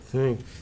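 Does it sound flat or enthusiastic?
flat. It sounds flat and unenthusiastic.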